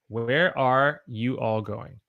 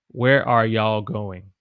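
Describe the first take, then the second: First: 'You all' is said as two full words. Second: 'You all' is squeezed into one syllable, y'all. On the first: This is the careful, standard form. "I want to say where are you all going?" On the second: This is the casual, spoken form. "when I say it, I would say"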